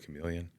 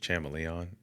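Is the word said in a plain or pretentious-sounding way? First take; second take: plain; pretentious. First: It is said in the plain, everyday way. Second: It is said in a fancy, pretentious-sounding way. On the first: "instead of chameleon" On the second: "Ted Mosby's character says chameleon"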